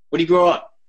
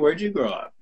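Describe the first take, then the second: First: It sounds like a blunt, probing interrogation. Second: It sounds like warm, friendly curiosity.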